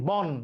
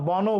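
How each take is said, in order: First: The word ends sharply on the final consonant. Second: The word ends with an added final vowel. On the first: The speaker calls it right. "ওখানে আমি থামছি" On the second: The speaker calls it wrong. "বনও বলছি না"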